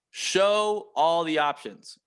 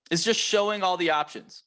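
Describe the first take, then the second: First: "Show all the options" said slowly, each word spaced out; slow down and lean on each word of "Show all the options"; slowed for emphasis. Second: Said in the usual way. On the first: Shown as a demonstration. Coach repeating the key point to reps, slowly.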